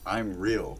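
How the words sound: It is said doubtfully, like a question. The speaker is trying to convince himself. "he's already lost all confidence"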